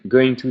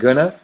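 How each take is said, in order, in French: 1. Chaque mot est dit en entier et séparément. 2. Les mots se fondent en une seule forme courte et réduite.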